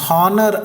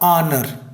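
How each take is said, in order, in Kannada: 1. ಈ ಪದ h ಧ್ವನಿಯಿಂದ ಆರಂಭವಾಗುತ್ತದೆ. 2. ಈ ಪದ ಸ್ವರ ಧ್ವನಿಯಿಂದ ಆರಂಭವಾಗುತ್ತದೆ. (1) "ಹಾನರ್ ಅಲ್ಲ"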